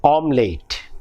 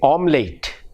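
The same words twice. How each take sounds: First: The final syllable sounds like 'late'. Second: The same.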